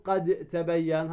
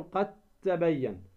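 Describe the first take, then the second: First: "قد تبين" with a bounced d, then separate t; wrong unmerged dal. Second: "قد تبين" as qat-tabayyan, doubled t; dal merged into ta. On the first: Teacher showing the error to avoid, د of قد sounded separately. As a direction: release the د of قد before تبين. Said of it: "هذا خطأ". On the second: Teacher correcting the error, قد تبين with د merged into ت. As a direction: let the د of قد vanish into تبين. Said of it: "فتدغم الدال في التاء". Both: Shown as a demonstration.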